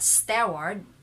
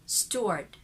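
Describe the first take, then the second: First: The second syllable has a full, stressed er. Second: The second syllable has a reduced, unstressed er. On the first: The speaker calls it wrong. "Not steward" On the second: The speaker calls it right. "this one is er, unstressed"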